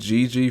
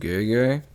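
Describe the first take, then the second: First: The vowels sound like 'ee'. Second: The vowels sound like 'eh'. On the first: The speaker calls it wrong. "I pronounced his name Gigi for this whole video" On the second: The speaker calls it right. "it's actually pronounced Gege"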